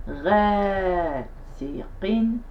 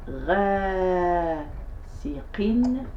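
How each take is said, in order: Both takes have the same delivery.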